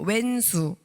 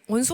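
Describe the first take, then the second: First: The first syllable has a 'we' vowel. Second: The first syllable has a rounded 'wo' vowel. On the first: A troublesome person close to home. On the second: A sworn enemy one does not have.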